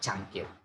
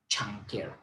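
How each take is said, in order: First: It starts with the Indonesian c sound. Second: It starts with an English-style ch sound. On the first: A native speaker says it this way. "But in bahasa Indonesia cangkir" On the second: A non-native speaker says it this way. "they change the ch sound into ch"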